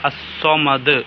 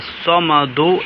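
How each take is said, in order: First: The word ends on a clearly bounced d. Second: The word ends with a short u vowel. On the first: "വെളിവാക്കി കേൾക്കുന്ന ആളുകൾക്ക് അത് വ്യക്തമാകുന്ന രീതിയിൽ സുക്കൂൻ ചെയ്യണം" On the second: "ദൊമ്മ മാറ്റിയിട്ട്"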